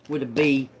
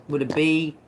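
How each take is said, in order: Both takes have the same delivery.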